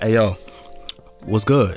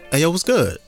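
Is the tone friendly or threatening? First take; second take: threatening; friendly. First: It is said in a confrontational, threatening tone. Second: It is said in a friendly, greeting tone. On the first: A conflict is about to start. "that's an indicator that it's about to go left" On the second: It is a friendly hello. "that's like greeting"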